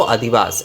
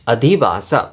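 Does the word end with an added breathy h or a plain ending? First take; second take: plain ending; breathy h. First: The word ends plainly without a breathy h. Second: The word ends with an added breathy h sound. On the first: This is the common everyday form. "Hindi में बांग्ला में जैसे बात करते हैं ना, तो अधिवास ऐसे ही" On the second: This is the proper Sanskrit form. "इसके अंत में जो है विसर्ग हो रहा है"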